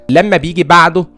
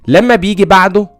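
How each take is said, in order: Both takes have the same delivery.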